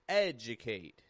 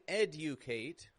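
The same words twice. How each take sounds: First: The D and U blend into a J sound. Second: The D and U are pronounced as separate sounds. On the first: The speaker calls it right. "D and U in the middle of a word blend together with kind of a J sound" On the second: The speaker calls it wrong. "I'm not saying educate"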